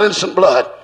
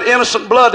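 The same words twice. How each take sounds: First: A low, dark cry of innocent blood; low devil's cry. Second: Said in the usual way. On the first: Retold or imitated. Preacher voicing the devil crying out, low. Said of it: "That was the devil crying out". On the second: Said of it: "Judas said".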